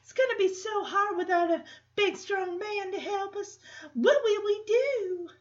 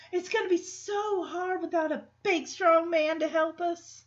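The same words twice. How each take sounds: First: High, sugary Southern belle, pleading; Southern belle drawl. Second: Lightly voiced Southern belle, higher; a hint of a helpless Southern belle. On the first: Retold or imitated. [name] pretending she needs a strong man, Southern drawl. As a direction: ham up the helpless Southern belle. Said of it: "why is this Southern drawl coming from". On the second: [name] playing helpless to the guys, mild Southern belle. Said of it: "why is she acting like a Southern belle".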